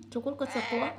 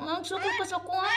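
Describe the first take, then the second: First: Said in the usual way. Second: High, quick, playful challenge; mock indignation. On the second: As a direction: act scandalised at a defiant baby. Mock scolding the baby. (nagpakaaron-ingnong nasuko, tinis ug paspas)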